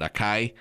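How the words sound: It is said the way most Americans say it.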